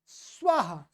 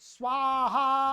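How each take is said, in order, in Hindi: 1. यह शब्द छोटे, साँस वाले 'ah' से समाप्त होता है। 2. यह शब्द लंबे 'aha' से समाप्त होता है। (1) "ये अ ह्रस्व अ है" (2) "वो कहते हैं स्वाहा"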